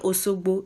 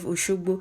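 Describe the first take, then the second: First: The middle consonant is a plain s sound. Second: The middle consonant is a sh sound. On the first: The speaker belongs to a group that lacks the sh sound. "they don't say she, they say Osogbo" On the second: The speaker uses the standard sound of the language. "if they want to say Oshogbo"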